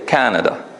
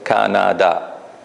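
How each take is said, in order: First: The stress falls on the first syllable. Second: All syllables get the same stress. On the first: "we put it in the first syllable" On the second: "there is no emphasis on a particular syllable. They are all the same"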